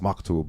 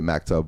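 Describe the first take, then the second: First: It is said with an Arabic pronunciation. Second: It is said with an American English pronunciation. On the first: The speaker calls it right. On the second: The speaker calls it wrong. "I say maktub"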